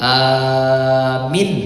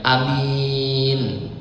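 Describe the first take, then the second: First: The first vowel is long, the second short. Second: The first vowel is short, the second long. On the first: It means believe. "Kalau dibacanya alifnya yang panjang, ianya yang pendek" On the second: It means honest. "Kalau dibacanya alifnya pendek, ianya panjang"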